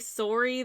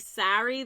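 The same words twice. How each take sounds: First: It is said with a Canadian accent. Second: It is said with an American accent.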